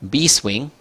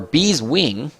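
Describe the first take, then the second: First: The s sound starts the second word. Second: The s sound ends the first word. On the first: The speaker calls it wrong. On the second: The speaker calls it right.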